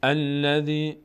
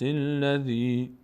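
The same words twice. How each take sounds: First: "الذی" opened with a clear "a", as "alladhi"; "الذی" with its first alif sounded; verse-initial form. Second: "الذی" linked as "illadhi", chanted slowly; "الذی" drawn out after a linking i; joined to previous verse. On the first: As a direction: start "الذی" fresh on a fatha. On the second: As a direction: run "الذی" on from the verse before, no opening "a". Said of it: "اگر چسباندیم آیه رو به هم". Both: Shown as a demonstration.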